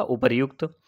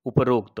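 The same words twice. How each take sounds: First: उपर्युक्त said as उपर-युक्त, with युक्त clear and a slight rise; correct form named. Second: उपरोक्त said with ओ after प, falling like an answer; wrong form named. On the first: Teacher gives students the right spelling, उपर्युक्त said clearly. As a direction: say उपर्युक्त carefully, stressing र्यु. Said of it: "शुद्ध क्या होगा?". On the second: Teacher names the wrong spelling for students, उपरोक्त with a falling close. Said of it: "इसका गलत रूप क्या होगा?". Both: Shown as a demonstration.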